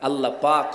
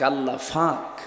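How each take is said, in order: First: The second word begins with a plain 'p' sound. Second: The second word begins with an 'f'-like sound. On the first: The speaker calls it right. "আল্লাহ পাক হয় নাকি" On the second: The speaker calls it wrong. "ওরা পানিকে পানি বলতে পারে না"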